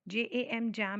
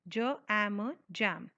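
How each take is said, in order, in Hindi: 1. हर अक्षर को उसके वर्णमाला के नाम से बोला जाता है। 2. हर अक्षर को उसकी छोटी ध्वनि से बोला जाता है। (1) "नहीं" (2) "फोनिक साउंड्स के हिसाब से बोलेंगे"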